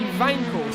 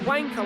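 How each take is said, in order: First: The word begins with a V sound. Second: The word begins with a W sound. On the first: The speaker calls it right. "I'm told it's supposed to be Wankel. So I assume in German a W is pronounced as a V" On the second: The speaker calls it wrong. "when I pronounce a Wankel engine"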